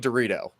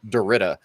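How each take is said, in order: First: The name ends in an 'oh' sound. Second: The name ends in an 'ah' sound. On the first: This is the name as the owner says it. The speaker calls it right. "it's obviously Dorito" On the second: The name is said wrongly on purpose to annoy. The speaker calls it wrong. "pronounces my name wrong every single time"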